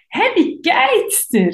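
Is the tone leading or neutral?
leading. It is said in a leading, suggestive tone.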